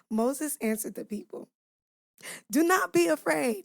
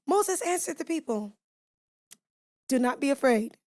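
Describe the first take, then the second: First: Said in the usual way. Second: Odd voice. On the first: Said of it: "I'm gonna bring that one down". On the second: Real, not acted. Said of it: "I don't know why I did that with my voice".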